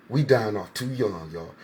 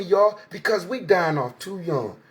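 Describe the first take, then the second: First: Much lower, softer and slow; a heavy, quiet second saying; solemn echo. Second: Said in the usual way. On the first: Real, not acted. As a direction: let the repeat sink like a lament. Repeats the line, lower and softer.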